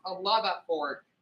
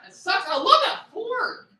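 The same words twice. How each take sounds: First: Said in the usual way. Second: Upset. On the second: Real, not acted. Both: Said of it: "I got a little bit upset".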